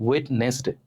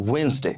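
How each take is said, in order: First: ওয়েডনেসডে with the d sounded, "wed-nes-de"; common mispronunciation. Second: ওয়েডনেসডে as two syllables, "wens-de"; correct pronunciation. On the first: Teacher showing how we usually say it, mispronounced. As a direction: say ওয়েডনেসডে as spelt, d and middle e heard. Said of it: "আমরা ইংরেজিতে কি বলি". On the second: Teacher showing learners the right way, correctly pronounced. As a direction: say ওয়েডনেসডে with the first d silent. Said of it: "এর উচ্চারণ হবে". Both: Shown as a demonstration.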